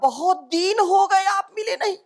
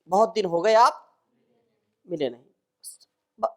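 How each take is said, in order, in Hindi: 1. दूसरे शब्द में दीर्घ i स्वर है। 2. दूसरे शब्द में ह्रस्व i स्वर है। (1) "दीन ... अर्थ का अनर्थ हो गया" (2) "अर्थ स्पष्ट है। ... दिन"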